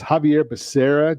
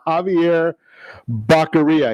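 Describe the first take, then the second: First: The surname is said like 'Becerra'. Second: The surname is said like 'Baccaria'. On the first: The speaker calls it right. "it's Javier Becerra" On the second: The speaker calls it wrong. "apparently they didn't get the pronunciation or the phonetics into the teleprompter"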